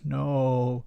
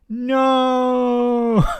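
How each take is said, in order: First: It is said in a deep Darth Vader voice. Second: It is said in his normal voice.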